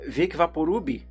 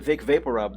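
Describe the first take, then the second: First: It is said with a Brazilian Portuguese pronunciation. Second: It is said with a plain English pronunciation. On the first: "They say uh" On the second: "People don't say Vic Vaporub"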